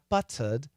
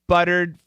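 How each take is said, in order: First: The T is a crisp British T. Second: The T is a quick flap. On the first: The speaker calls it wrong. "not buttered. Buttered is very British" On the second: The speaker calls it right. "Get that flap T"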